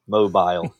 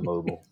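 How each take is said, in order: First: It is pronounced the British English way. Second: It is pronounced the American English way.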